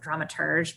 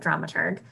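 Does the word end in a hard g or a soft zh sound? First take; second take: soft zh; hard g. First: The word ends in a soft zh sound. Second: The word ends in a hard g sound. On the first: The speaker calls it wrong. "spell it with the E and pronounce it dramaturge" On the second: The speaker calls it right. "I pronounce it dramaturg"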